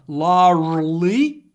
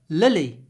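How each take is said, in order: First: The ending is said with an r sound. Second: The ending is said without an r sound. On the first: The speaker calls it wrong. "Larly is difficult" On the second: The speaker calls it right. "don't pronounce the r. ... lily is easy"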